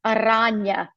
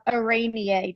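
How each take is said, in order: First: Arania with a broad AH in the middle; alternative pronunciation. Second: Araneae with a long AY in the middle; alternative pronunciation. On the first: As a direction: say "Arania" as a-RAHN-ya. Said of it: "depending on how you, um, might pronounce that". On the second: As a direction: say "Araneae" as a-RAY-nee-ay. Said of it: "might pronounce that". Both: Shown as a demonstration.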